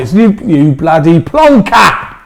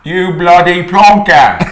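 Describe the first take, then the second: First: Slow "plonker" with no R, ending in "ah"; Cockney plonker. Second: Loud, slow, higher "plonker" without the R, laughing; Cockney plonker. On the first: Comedian teaches the actor Cockney, no R. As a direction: drop the R in "plonker", slowly. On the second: Actor copies the comedian's Cockney insult. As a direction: shout "bloody plonker" Cockney style, R dropped. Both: Shown as a demonstration. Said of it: "don't put the R in it".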